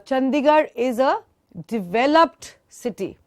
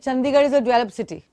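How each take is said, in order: First: The final t sound of developed is clearly released. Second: The final t sound of developed is dropped. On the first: The city has already been developed. The speaker calls it right. "Suppose I have to say uh" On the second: It sounds like present tense develop. The speaker calls it wrong. "But I say ... उसका tense ही गलत हो गया"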